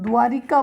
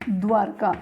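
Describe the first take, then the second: First: It is said with an 'i' before 'ka'. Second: It is said without an 'i' before 'ka'. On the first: The speaker calls it wrong. "द्वारिका जो है वो शब्द गलत है" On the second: The speaker calls it right. "द्वारका होता है"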